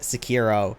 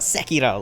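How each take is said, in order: First: It is said the English-style way. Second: It is said the Japanese-style way. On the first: This is how most players say it. The speaker calls it wrong. "I heard people pronounce it uh" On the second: This is how it is said in Japanese. The speaker calls it right. "like I thought it was"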